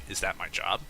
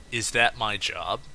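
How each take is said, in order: First: No snootiness, just a dry plain question; retelling what the customer asked the cashier, matter-of-fact; flat matter-of-fact statement. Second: Matter-of-fact question. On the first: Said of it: "as a matter of fact statement". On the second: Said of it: "he says". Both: Retold or imitated.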